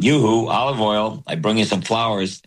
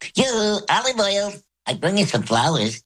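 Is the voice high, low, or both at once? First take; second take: low; high. First: It is said in a low voice. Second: It is said in a high voice.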